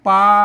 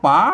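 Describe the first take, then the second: First: The word starts with a pl cluster. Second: The word starts with a plain p, no l. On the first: This is how an outsider would read it. The speaker calls it wrong. "มันมันผิดสำเนียงนะครับ" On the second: This is the local reading of the written word. The speaker calls it right. "ตัวปะอ่าไม่กาเปิ้นอ่านว่าป๋านะ"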